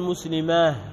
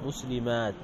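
First: The word ends with an h sound. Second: The word ends with a t sound. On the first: The speaker calls it wrong. "ما تقول مسلماه" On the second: The speaker calls it right. "تقول مسلمات في التاء المفتوحة"

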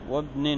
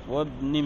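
The two takes are said the same way.

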